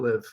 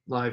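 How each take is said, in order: First: The vowel sounds like 'ih', rhyming with give. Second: The vowel sounds like 'eye', rhyming with five. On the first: It means residing together. The speaker calls it wrong. "not live" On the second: It means broadcasting in real time. The speaker calls it right.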